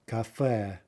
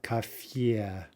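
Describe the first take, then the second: First: The final vowel has no y sound. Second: The final vowel has a y sound. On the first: The speaker calls it right. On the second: The speaker calls it wrong.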